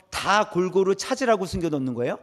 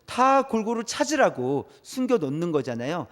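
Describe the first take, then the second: First: "숨겨놓는 거예요?" lifted at the end as a question; rising question. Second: "숨겨놓는 거잖아요" brought down as an obvious answer; falling answer. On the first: Preacher quizzing listeners on treasure hunts, rising question on "거예요?". Rhetorical question, then its answer. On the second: Preacher answering own treasure-hunt question, falling tune on "거잖아요". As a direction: settle "거잖아요" downward, as a statement. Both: Shown as a demonstration.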